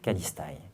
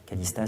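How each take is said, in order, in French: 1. Le mot se termine par un son 'i' ajouté. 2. Le mot se termine sans son 'i' ajouté.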